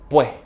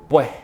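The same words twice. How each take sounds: First: The final s is replaced by a breath. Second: The final s is replaced by a breath.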